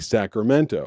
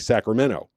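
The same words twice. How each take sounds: First: The T sound in the middle is pronounced. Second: The T sound in the middle is dropped. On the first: This is how outsiders say it. "people in uh, Sacramento don't say Sacramento" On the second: This is how locals say it. "They say Sacramento. They don't put the T in it at all"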